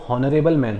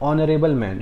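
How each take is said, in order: First: The first word begins with an audible h. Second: The first word begins with a vowel, h silent. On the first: The speaker calls it wrong. "अगर पढ़ूँ इसको मैं उसके हिसाब से तो वो हॉनरेबल man हो जाएगा" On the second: The speaker calls it right. "But उसको एक्चुअली प्रोनाउंसिएशन कैसे करते हैं"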